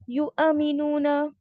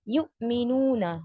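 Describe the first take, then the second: First: An extra vowel sound follows the stop after 'yu'. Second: The sound closes completely after 'yu' without release. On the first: The speaker calls it wrong. "ऐसे नहीं करना, इसमें कुछ कलकला या कुछ ऐसे नहीं डालना है" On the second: The speaker calls it right. "यू आपने पूरा कंप्लीटली क्लोज कर देना है"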